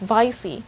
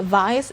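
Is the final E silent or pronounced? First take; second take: pronounced; silent. First: The final E is pronounced. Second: The final E is silent. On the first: The speaker calls it right. "the letter E in this word has the sound" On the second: The speaker calls it wrong. "it's not just silent this time, it's not vice"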